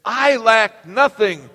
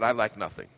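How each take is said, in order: First: Slow, loud, every word of I lack nothing weighted; with conviction. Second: Said in the usual way. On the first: Shown as a demonstration. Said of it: "Say it with conviction". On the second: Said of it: "Say that".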